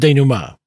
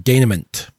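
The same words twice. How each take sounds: First: The last syllable does not sound like mint. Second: The last syllable sounds like the word mint. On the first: The speaker calls it right. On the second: The speaker calls it wrong.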